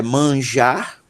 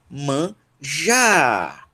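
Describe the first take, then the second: First: Said in the usual way. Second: "manjar" split in two, the "jar" long drawn out; stress on final syllable. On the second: Shown as a demonstration. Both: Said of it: "a sílaba tônica dela é já".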